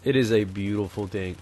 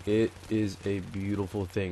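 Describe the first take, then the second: First: Said in the usual way. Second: Slow, softer "It is a beautiful thing"; measured, drawn-out emphasis on each word; slow, deliberate repeat. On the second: Real, not acted. Repeats line slower for emphasis.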